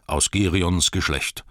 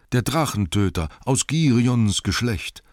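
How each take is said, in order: First: Slow, louder, Girions stressed with falling close; proud declaration. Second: Higher, louder praise of aus Girions Geschlecht, Girions stressed; crowd praising hero. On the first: Bard declares his lineage to the townsfolk, proud and slow. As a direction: claim aus Girions Geschlecht with pride. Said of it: "rief er". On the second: Townsfolk praise dead Bard's lineage, raised admiring voice. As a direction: hail Girions as a lineage of kings. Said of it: "sagten sie alle". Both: Acted.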